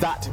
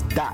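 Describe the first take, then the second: First: The word begins with a th sound. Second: The word begins with a d sound. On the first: "the sound of th" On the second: "is pronounced as a d sound"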